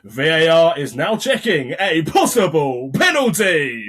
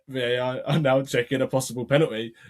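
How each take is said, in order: First: It is said with excited, rising energy. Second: It is said in a flat, even monotone. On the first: The announcer shows hope that the decision favours the home side. The speaker calls it wrong. "You are so tempted to go" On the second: The announcer stays neutral and lets the crowd react. The speaker calls it right. "You have to just be so monotone"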